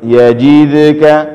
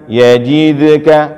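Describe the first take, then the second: The two takes are said the same way.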